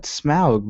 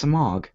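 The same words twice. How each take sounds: First: Smaug said as "smowg"; movie pronunciation. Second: Smaug said as "smog"; own pronunciation. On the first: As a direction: rhyme the first part of Smaug with "cow". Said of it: "who called it Smaug before the movies". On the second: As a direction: say Smaug just like the word "smog". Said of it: "it's Smaug". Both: Shown as a demonstration.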